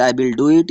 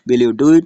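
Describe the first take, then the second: First: "I will do it" said with the pitch falling at the end, as a statement; falling intonation. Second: "will you do it" asked with the pitch rising at the end, and said a bit louder; rising intonation. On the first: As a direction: let "it" drop down to close the sentence. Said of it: "यहाँ falling intonation है". ("I will do it" गिरते सुर में, बयान की तरह) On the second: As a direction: lift "it" up at the end like a yes-no question. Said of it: "यहाँ rising intonation है". ("will you do it" चढ़ते सुर में, सवाल की तरह) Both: Shown as a demonstration.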